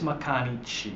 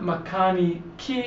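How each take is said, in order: First: The final syllable begins with a ch sound. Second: The final syllable begins with a hard k sound. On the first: The speaker calls it right. "it's mekanichi" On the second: The speaker calls it wrong. "so it's not mekaniki"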